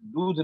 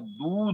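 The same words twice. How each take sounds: First: The vowel is short. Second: The vowel is long. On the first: The speaker calls it wrong. "दूध नहीं होता" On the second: The speaker calls it right. "दूध होता है, बड़ी ऊ की मात्रा होता है"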